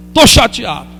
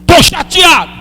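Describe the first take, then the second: First: Said in the usual way. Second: Higher, strained cry of being upset; anguished cry. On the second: Pretend. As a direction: cry it out to God. Shouted then repeated quietly.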